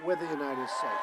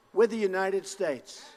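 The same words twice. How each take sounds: First: Much lower and softer, an intimate echo; dropped low. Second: Slow, proud shout to the crowd; rally shout. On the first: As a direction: let it fall to a hush. Repeated slogan, dropped low. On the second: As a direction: declare it like a battle cry. Rally crowd, repeated slogan. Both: Real, not acted.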